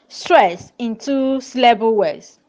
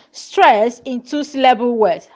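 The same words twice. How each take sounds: The two takes are said the same way.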